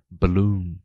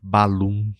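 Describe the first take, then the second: First: The first syllable has a short reduced schwa. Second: The first syllable has a full, clear vowel. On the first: The speaker calls it right. "o schwa está justamente nessa sílaba mais fraca" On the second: The speaker calls it wrong. "Eu não disse balloon"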